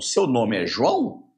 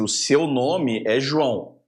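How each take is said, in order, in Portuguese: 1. O tom sobe no final. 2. O tom desce no final. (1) "Ou então eu posso" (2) "eu chego para você e falo assim"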